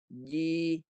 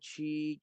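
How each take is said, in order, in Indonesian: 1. Konsonannya bersuara penuh tanpa hembusan napas. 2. Konsonannya tak bersuara dengan hembusan berdesis. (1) "sifat dia suara je" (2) "dia tak ada ja, ci, cu, tak boleh"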